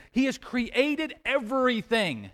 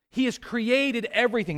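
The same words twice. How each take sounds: First: "created everything" drawn out slowly and raised in pitch; deliberate, higher stress on "created everything"; slow emphatic repeat. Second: Said in the usual way. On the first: Real, not acted. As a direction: spell out "created everything" slowly, weighting each word.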